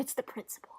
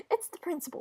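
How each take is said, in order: First: Soft, barely voiced mutter; trailing away almost to a whisper; hushed repeat. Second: "It's the principal" pitched up, falling at the end; higher-voiced insistence at normal volume; high-pitched protest. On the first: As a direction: repeat it under your breath. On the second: Acted protest, said twice differently.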